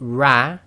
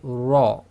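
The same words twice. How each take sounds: First: Light ra with spread lips, a thin sound. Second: Heavy ra with rounded lips, a full sound. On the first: The speaker calls it wrong. "that is with a slight smile" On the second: The speaker calls it right. "and that is with a full mouth"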